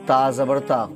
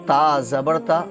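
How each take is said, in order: No difference in how they are said.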